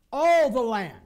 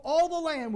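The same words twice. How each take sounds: First: ALL punched out very loud, then falling; emphatic repetition. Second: Said in the usual way. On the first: Real, not acted. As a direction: hit ALL hard in "All the land". Repeats verse phrase for emphasis.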